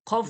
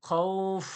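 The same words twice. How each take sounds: First: The vowel is cut short before the final stop. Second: The vowel is held long before the final stop. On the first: The speaker calls it wrong. "আপনি যদি ধরে না রেখে অফ করেন, তাহলে কি হবে? পড়াটা অশুদ্ধ হয়ে যাবে" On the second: The speaker calls it right. "পরিপূর্ণ শুদ্ধ, শুদ্ধ আওয়াজ আসছে"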